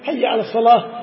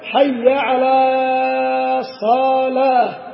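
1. تُمد الحركات مدًا متوسطًا فقط. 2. تُمد الحركات مدًا طويلًا جدًا. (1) "فعلى يعني ارفق بها قليلا" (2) "هذا خطأ وهذا خطأ في على وفي الصلاة"

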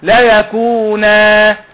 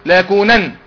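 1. تنتهي الكلمة بألف طويلة. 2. تنتهي الكلمة بصوت نون واضح. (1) "لو اخرها ده تنوين تقف ازاي؟" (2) "لا يكونن لو اخرها نون تقف عليها ازاي؟"

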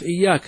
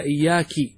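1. تنتهي الكلمة بالصوت 'a'. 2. تنتهي الكلمة بالصوت 'i'.

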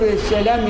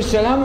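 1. تُمَدّ الحركة التي بعد اللام مدًّا طويلًا جدًّا. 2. تُبقى الحركة التي بعد اللام قصيرة. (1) "يمد اللام 12 حركة" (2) "معناه أنك أنت تسلم بلفظة قصيرة"

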